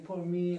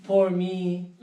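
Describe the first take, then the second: First: Poor me said small with a pout; pitiful face. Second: Louder, pleading poor me; Poor me wailed out loud; loud self-pity. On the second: Watching diners eat, wailing loud self-pity. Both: Retold or imitated. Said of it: "I would make the face like".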